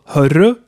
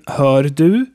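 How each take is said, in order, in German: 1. Das d fällt weg, es entsteht 'hörre'. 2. Das d in 'du' wird deutlich ausgesprochen.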